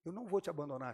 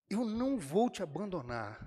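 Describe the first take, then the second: First: Said in the usual way. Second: "não" lifted and punched in "Eu não vou te abandonar"; stress on não. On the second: Acted. Jesus reassures Pedro, with a firm stress on "não". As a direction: lean hard on the word "não", a little higher and firmer.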